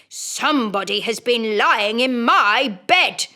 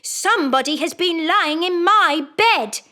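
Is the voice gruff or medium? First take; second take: gruff; medium. First: It is said in a rough, gruff voice. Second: It is said in a middle-sized voice.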